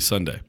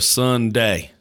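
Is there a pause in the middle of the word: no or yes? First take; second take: no; yes. First: The word is said quickly without a break. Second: The word is drawn out with a pause inside. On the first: The speaker calls it right. "the correct way to say it would be Sunday. Quick" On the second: The speaker calls it wrong. "Like with a big pause In between"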